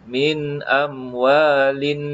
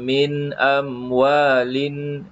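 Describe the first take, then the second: The two takes are said the same way.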